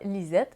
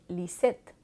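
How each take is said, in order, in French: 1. La consonne du milieu est un z sonore. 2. La consonne du milieu est un s sifflant. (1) "on ne dira pas Lisette" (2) "mais bien Lisette, parce qu'on prononce le Z comme un S"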